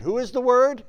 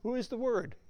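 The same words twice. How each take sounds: First: Loud rhetorical question. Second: Soft repeated question. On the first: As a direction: question thrown out loud to the room. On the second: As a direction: repeat it softer, inviting an answer. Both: Shown as a demonstration.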